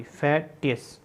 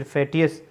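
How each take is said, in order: First: "फैटियस" slowly as फै, then टियस; syllable by syllable. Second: Said in the usual way. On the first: Shown as a demonstration. Teacher writing it out for students, "फैटियस" slowly split. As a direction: break "फैटियस" before its ending, softly. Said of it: "अस का sound पढ़ना है".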